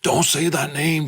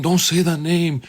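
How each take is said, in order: First: Higher put-on demon voice, pleading; the demon warns the preacher off, pitched up. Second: Demon voice. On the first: Demon inside the man refusing the name of Jesus, higher voice. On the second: Retold or imitated. Demon shouting down the prayer, higher and firmer. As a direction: push the warning up high, demanding. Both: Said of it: "the demon starts speaking".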